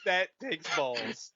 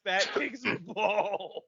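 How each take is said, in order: First: Said in the usual way. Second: Slow, laughing through the words; breaking into a laugh mid-phrase. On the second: Real, not acted. Impressed by the fake Scottish accent story, laughing slowly.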